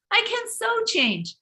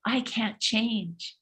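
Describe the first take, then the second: First: Much higher, defiant insistence; mock triumphant retort. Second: Slow soft tempting murmur; a mild mock devil's whisper. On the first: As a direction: fight back against the doubt. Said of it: "No, wait a minute". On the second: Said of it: "the devil whispers".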